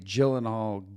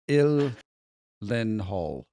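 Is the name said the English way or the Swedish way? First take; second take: English; Swedish. First: The name is said with an English pronunciation. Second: The name is said with a Swedish pronunciation. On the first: This is how people usually say it. The speaker calls it wrong. "I would say" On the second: This is how the family itself says it. The speaker calls it right. "It's Swedish"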